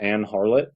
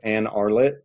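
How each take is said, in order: First: The h sound at the start is pronounced. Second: The h sound at the start is dropped.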